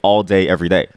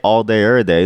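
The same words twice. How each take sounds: First: The phrase is said clearly and fully. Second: The phrase is slurred together loosely. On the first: "then you know that I'm saying all day every day" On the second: "if I say all day every day"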